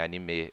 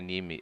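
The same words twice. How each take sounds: First: The stress falls on the last syllable. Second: The stress falls before the last syllable. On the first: The speaker calls it right. "A oxítona são as palavras em japonês ... é anime" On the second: The speaker calls it wrong. "Não é"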